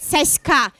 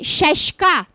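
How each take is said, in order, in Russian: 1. Согласные звучат как мягкое 's'. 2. Согласные звучат как мягкое 'sh'. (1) "они произносят «с»" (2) "мягкая «с», она произносится как «ще»"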